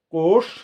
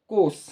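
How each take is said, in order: First: कोश drawn out to a hushing, tongue-back sh; kosh with sh. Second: कोस drawn out to a hissing dental s; kos with s. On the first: Teacher showing how much the words differ, कोश with sh. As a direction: end कोश on a full sh, tongue pulled back. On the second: Teacher showing how much the words differ, कोस with s. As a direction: end कोस on a plain s, tongue at the teeth. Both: Shown as a demonstration. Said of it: "देखिए कितना बड़ा अंतर है".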